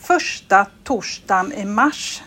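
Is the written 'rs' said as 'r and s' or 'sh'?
sh. The rs is merged into one sh sound. This is how people in Gothenburg say it. "som vi säger här i Göteborg"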